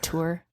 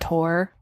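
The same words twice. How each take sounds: First: The vowel sounds like the one in 'poor'. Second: The vowel sounds like the one in 'more'. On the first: This is the standard pronunciation. The speaker calls it right. "instead of tour" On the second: This is a regional Southern pronunciation. The speaker calls it wrong. "that's how I say those words, even though I know it's not correct"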